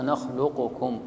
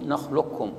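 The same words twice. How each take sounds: First: نخلقكم spelt out slowly as nakh-lu-qu-kum; unmerged original form. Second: نخلقكم as nakhlukkum, qaf absorbed into doubled kaf; merged idgham. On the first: Teacher shows original before merging, separate qaf in نخلقكم. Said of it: "أصلها". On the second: Teacher shows the merged reading, doubled kaf in نخلقكم. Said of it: "فأدغمت، يقول". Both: Shown as a demonstration.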